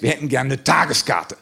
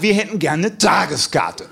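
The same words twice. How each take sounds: First: Said in the usual way. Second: Slow, emphatic insistence stressing wir; we repeat our order, slower and pointed; challenged, insistent. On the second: Retold or imitated. Guys insist on a day pass, slow and pointed. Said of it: "testosterontechnisch etwas herausgefordert".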